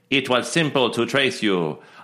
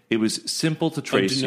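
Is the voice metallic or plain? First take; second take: metallic; plain. First: It is said in a put-on metallic voice. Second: It is read in a plain, ordinary voice.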